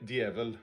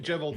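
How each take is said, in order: First: It starts with a Norwegian dy sound. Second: It starts with an English j sound. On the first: "in in Norwegian, it's uh" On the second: "Jevil's fine. That's easier to remember for uh, English speakers"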